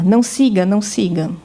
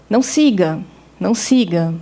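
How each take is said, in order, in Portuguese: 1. Uma pausa curta une as duas frases em um único bloco. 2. Uma pausa longa, como um ponto final, separa as duas frases.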